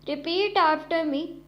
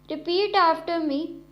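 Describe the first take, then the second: The two takes are said the same way.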